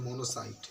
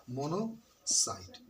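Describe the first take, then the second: First: Said in the usual way. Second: "monocyte" slowly in two parts, mono, pause, site; syllable-split dictation. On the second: Shown as a demonstration. Teacher dictating to pupils, slow split "monocyte". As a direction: break "monocyte" after mono, drawing it out.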